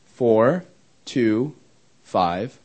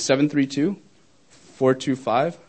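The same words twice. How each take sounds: First: Digit by digit, with long pauses; slow dictation. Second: Said in the usual way. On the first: Real, not acted. Speaker repeating phone number for the audience to copy, slow dictation. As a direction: dictate it slowly, leaving gaps to write.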